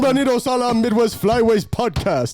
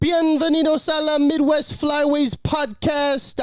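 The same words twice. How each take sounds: First: The voice is deep, from the chest. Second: The voice is high-pitched.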